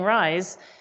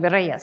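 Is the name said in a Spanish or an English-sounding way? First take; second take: English; Spanish. First: The name is said like the English word rise. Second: The name is said with its Spanish pronunciation. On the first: The speaker calls it wrong. "my dad actually mispronounces it on purpose by saying rise" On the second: The speaker calls it right. "So it's actually Reyes"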